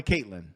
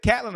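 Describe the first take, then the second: First: "Caitlin" with a long a, as in Kate; name check. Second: "Catlin" with a short a, as in cat; name check. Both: Shown as a demonstration. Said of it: "Did I get it?".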